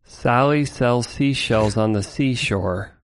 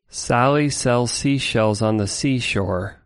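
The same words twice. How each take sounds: First: The S sounds are cut so much they lisp. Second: The S sounds are left unprocessed and full. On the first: "let's hear this like extreme version" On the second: "let's hear the normal one again"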